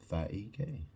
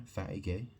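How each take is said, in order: Both takes have the same delivery.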